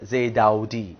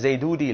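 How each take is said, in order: First: The middle sounds like a drawn-out 'avu'. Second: The middle sounds like a short 'oo'. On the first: The speaker calls it right. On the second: The speaker calls it wrong. "ஜெய்தூதி இல்ல"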